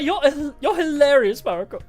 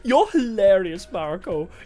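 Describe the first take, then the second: First: It is said in a plain, unchanged voice. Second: It is said in a put-on character voice.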